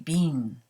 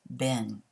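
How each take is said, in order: First: The word is said with a British pronunciation. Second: The word is said with an American pronunciation. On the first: "In Great Britain, they say been" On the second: "in the U S, we say been"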